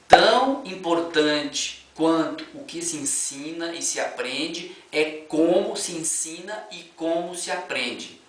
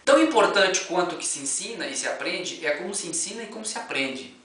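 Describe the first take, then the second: First: It is read slowly and deliberately. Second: It is read at normal speed.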